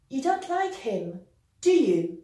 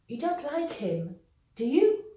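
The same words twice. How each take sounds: First: The voice falls on the tag. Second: The voice rises on the tag. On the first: The speaker is quite sure. "using a falling intonation, which means we are rather sure" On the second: The speaker is unsure. "we're going to use the rising intonation"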